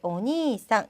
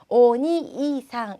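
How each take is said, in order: First: The long vowel is held smoothly as one sound. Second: The long vowel is broken into separate syllables. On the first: The speaker calls it right. "이 길게 오니상 이렇게 발음해 주시고요" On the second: The speaker calls it wrong. "이렇게 한 글자씩 떨어뜨려서 발음하지 않도록"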